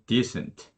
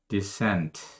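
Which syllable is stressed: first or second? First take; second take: first; second. First: The stress is on the first syllable. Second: The stress is on the second syllable. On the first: The word is used as a noun. "명사일 땐 앞에 강세가 있어서" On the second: The word is used as a verb. "동사일 때는 뒤에 강세가 있어서"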